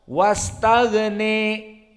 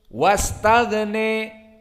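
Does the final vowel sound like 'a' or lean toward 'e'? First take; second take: e; e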